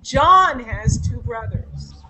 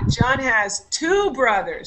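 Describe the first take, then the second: First: The stress is on John. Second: The stress is on two.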